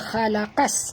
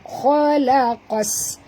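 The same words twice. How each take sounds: First: The opening kh is pronounced light and thin. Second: The opening kh is pronounced heavy and thick. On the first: The speaker calls it wrong. "jangan baca khalaqas" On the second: The speaker calls it right. "kena baca tebal"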